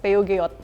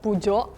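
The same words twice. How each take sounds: First: It is pronounced letter by letter as written. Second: It is pronounced imitating the French pronunciation. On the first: "Reading it would be like" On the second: "copying French, it would be like"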